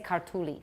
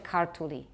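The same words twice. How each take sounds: First: The stress falls on a later syllable. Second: The stress falls on the first syllable. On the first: The speaker calls it wrong. "we would like to say kartuli" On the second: The speaker calls it right. "Just put the stress at the beginning"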